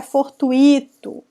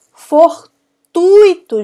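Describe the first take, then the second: First: Fortuito with u and i split, beat on I; stress on I. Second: Fortuito very slow, TUI high, loud, one syllable; stress on TUI. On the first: Teacher showing the mistake, fortuito stressed on I. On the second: Teacher correcting students, Fortuito stressed hard on TUI. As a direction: say Fortuito as for-TÚI-to. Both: Shown as a demonstration. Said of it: "não é fortuito".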